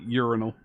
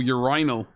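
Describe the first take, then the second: First: Urinal stressed on the first syllable; usual pronunciation. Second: Urinal stressed on the middle syllable, rhyming with final; alternative pronunciation. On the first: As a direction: say urinal as YOOR-uh-nul. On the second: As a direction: say urinal as yuh-RYE-nul. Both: Shown as a demonstration. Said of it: "Not into that pronunciation of it".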